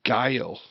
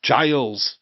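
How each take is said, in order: First: "Guile" said as "gile", one syllable ending in L with no final S; "Guile" voiced like the Street Fighter name, no S at the end; wrong name said. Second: "Giles" voiced with a J at the start and an S buzzing at the end; right name said. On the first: Correcting himself, he first says the wrong name "Guile", rhyming with "mile". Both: Shown as a demonstration. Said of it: "It's Giles. Not Guile".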